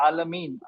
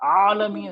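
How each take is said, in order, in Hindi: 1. यह एक सादे कंठ्य स्वर से शुरू होता है। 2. यह एक कसे हुए गले वाले स्वर से शुरू होता है। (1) "काफी लोग पढ़ते हैं आलमीन ... हमजा की तरह पढ़ते हैं" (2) "आलमीन है वो"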